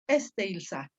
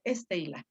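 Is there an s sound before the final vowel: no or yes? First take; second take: yes; no. First: An s sound comes before the final vowel. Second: No s sound comes before the final vowel. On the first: This is the older, harder form. "Es más fácil decir Estela que decir Esteilsa" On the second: This is the simplified, easier form. "desaparecieron, hicieron que desapareciera esa, esa sigma"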